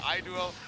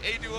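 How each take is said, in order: First: The name begins with an 'eye' sound. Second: The name begins with an 'ay' sound. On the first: "I say I-Duo" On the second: "I say A-Duo"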